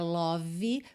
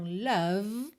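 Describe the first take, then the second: First: A vowel is sounded after the final V. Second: It ends on V with an unrounded vowel. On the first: The speaker calls it wrong. "esse E final não é pronunciado" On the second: The speaker calls it right. "eu termino o som na letra V"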